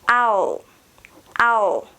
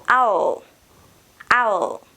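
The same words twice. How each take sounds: The two takes are said the same way.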